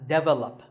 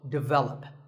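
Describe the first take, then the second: First: The stress is on the first syllable. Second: The stress is on the second syllable. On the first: The speaker calls it wrong. "pronounced wrongly by many learners of English as develop" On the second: The speaker calls it right. "the stress is on the second syllable. So develop"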